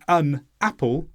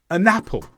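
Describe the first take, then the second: First: "an apple" with a break after "an"; separate words. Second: "an apple" run together as a-napple; joined words. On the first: Teacher shows unlinked speech, "an apple" as two words. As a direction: keep "an" and "apple" apart. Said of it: "Instead of saying". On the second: Teacher shows linking, "an apple" said as a-napple. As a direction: carry the n of "an" onto "apple". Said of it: "I say". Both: Shown as a demonstration.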